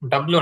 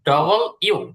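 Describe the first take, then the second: First: It is run together as one blended word. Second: It is split into two separate words. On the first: The speaker calls it wrong. "W না" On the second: The speaker calls it right. "আলাদা আলাদা ভাবে"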